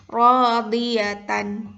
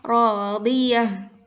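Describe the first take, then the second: First: The word ends with a full -tan syllable. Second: The word ends with a silent h sound. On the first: The reading continues without stopping. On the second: The reader stops on this word.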